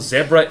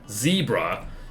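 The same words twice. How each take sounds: First: Zebra is said in a non-American way. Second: Zebra is said in an American way. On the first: The speaker calls it right. "zebra is the correct way to pronounce it" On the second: The speaker calls it wrong. "how Americans say it"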